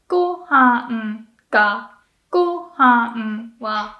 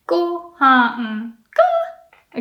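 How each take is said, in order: First: Slow "Gohan ga" falling after go; correct atamadaka. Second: Slow "gohan ga" jumping up on ga; wrong pitch. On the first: Teacher modelling the correct gohan ga. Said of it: "it stays low". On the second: Teacher showing the wrong rise on gohan ga. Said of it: "There is no way it would go". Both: Shown as a demonstration.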